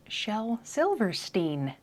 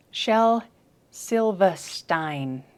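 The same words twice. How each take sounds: First: Silverstein with a drawn-out STEEN ending; looked-up pronunciation. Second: Very slow Silverstein, no r, ending STINE; British pronunciation. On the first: Reporting the name after looking it up, careful Silverstein as -steen. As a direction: say Silverstein to rhyme with bean. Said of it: "Well, apparently it's". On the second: Showing the British pronunciation just found, slow Silverstein as -stine. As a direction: say Silverstein as SIL-vuh-STINE, drawn out. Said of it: "I just found a British pronunciation". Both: Shown as a demonstration.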